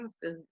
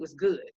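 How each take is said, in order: First: It is said flatly, without enthusiasm. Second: It is said with lively, excited energy. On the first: The chili was not really good. The speaker calls it wrong. "If I say it like that, you're gonna think maybe my chili wasn't really good" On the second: The chili was truly good. The speaker calls it right. "my excitement and my body language is a lot different"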